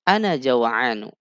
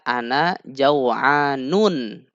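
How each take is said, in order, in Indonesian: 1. Kata terakhir berakhir pada vokal biasa. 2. Kata terakhir berakhir dengan bunyi n tambahan.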